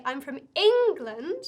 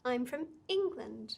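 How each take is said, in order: First: "England" shouted out with a big exaggerated rise, slow and much louder; wrong way: "England" blasted loud and rising; overdone stress. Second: A gentle lift on England, nothing more; subtle lift on England. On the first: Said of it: "You don't wanna say". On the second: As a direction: give "England" just a subtle rise and a little extra push. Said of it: "Very subtle". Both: Shown as a demonstration.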